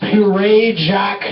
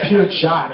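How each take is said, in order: First: The name is said with more than two syllables. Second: The name is said with exactly two syllables. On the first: The speaker calls it wrong. "how the fuck do you pronounce this beer?" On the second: The speaker calls it right. "two syllables, really easy"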